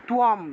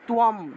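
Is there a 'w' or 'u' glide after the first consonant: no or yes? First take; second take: yes; yes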